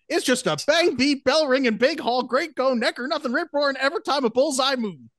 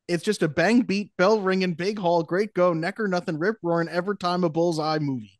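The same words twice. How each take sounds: First: It is read with more energy. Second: It is read with less energy.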